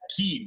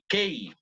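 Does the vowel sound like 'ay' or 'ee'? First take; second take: ee; ay. First: The vowel is a long 'ee' sound. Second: The vowel sounds like a Spanish 'e'. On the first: The speaker calls it right. "Key, very good" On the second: The speaker calls it wrong. "A lot of people say K"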